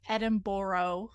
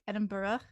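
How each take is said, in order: First: The name ends without an 'uh' sound. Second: The name ends with an 'uh' sound. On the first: "it's always funny when people are like" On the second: "it's like a ugh sound at the end"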